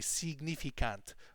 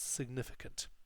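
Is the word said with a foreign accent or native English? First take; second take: foreign; native English. First: It is said with a European-language pronunciation. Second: It is said with a native English pronunciation. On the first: The speaker calls it wrong. "They say significant, but it's of course not that in English" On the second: The speaker calls it right. "it's significant"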